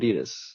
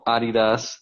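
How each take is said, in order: First: Adidas is said the usual American way. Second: Adidas is said the European way. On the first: The speaker calls it right. "It's Nike and Adidas" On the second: The speaker calls it wrong. "This ain't no Adidas"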